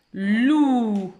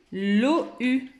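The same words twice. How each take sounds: First: "Loup" blended into one drawn-out "lllouuu"; read together. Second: "l'O U" read apart as "lo, u"; split misreading. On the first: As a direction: hold both sounds of "Loup", loud and joined. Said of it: "on doit les lire ensemble". (« Loup » d'un seul tenant, son allongé) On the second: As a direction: break "l'O U" into two separate vowels. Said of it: "Je ne dois pas lire". (« l'O U » mal lu, en « lo-u » séparé) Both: Shown as a demonstration.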